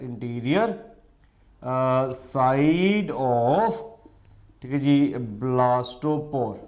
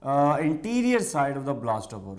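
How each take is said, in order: First: Each word drawn out for note-taking; slow dictation. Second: Said in the usual way. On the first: Shown as a demonstration. Teacher dictates slowly to students for their notes. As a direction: spell it out slowly so they can write. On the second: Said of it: "Interior, side of, blastopore".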